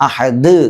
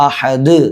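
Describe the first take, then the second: Both takes have the same delivery.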